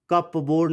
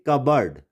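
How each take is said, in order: First: कप बोर्ड as cup plus board; P sounded. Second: कबर्ड as KUB-erd; silent P. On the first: Teacher shows how not to read it, P sounded. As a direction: misread cupboard as two full words, कप बोर्ड. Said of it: "नहीं पढ़ेंगे". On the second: Teacher gives the correct reading, silent P. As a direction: say कबर्ड with no p, short second syllable. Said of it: "इसको हम कप बोर्ड नहीं". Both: Shown as a demonstration.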